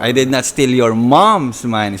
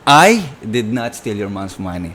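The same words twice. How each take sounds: First: The strongest stress falls on the word mom's. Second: The strongest stress falls on the word I. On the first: Money was taken, but it belonged to someone else. "may nawalang pera, pero baka hindi sa mom mo" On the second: The theft happened, but someone else did it. "pwedeng, yes, nangyari nga, nanakawan, pero baka hindi ako yon"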